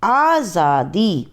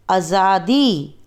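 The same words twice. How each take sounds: First: आज़ादी slow with a clear z sound; correct pronunciation. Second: आज़ादी slow with j instead of z, आजादी; wrong form. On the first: Teacher gives students the correct form, careful z. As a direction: give आज़ादी a clear buzzing z, slowly. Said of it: "फिर हम शुद्ध उच्चारण करके बताएंगे". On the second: Teacher shows students the error, j instead of z. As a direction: say आज़ादी as आजादी, plain j sound. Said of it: "पहले हम आपको अशुद्ध वर्ण बताएंगे". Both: Shown as a demonstration.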